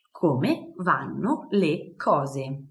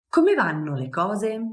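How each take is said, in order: First: Very slow model phrase. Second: Said in the usual way. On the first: Shown as a demonstration. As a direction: Come vanno le cose drawn out slowly.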